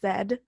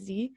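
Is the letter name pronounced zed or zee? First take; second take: zed; zee. First: The letter is pronounced zed, Canadian style. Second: The letter is pronounced zee, American style.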